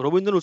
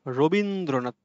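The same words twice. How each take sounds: First: Rabindranath slowed into four separate beats, র-বীন্-দ্র-নাথ; syllable by syllable. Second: Said in the usual way. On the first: Shown as a demonstration. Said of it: "চারটি অক্ষর আছে". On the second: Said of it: "উচ্চারণ করো রবীন্দ্রনাথ".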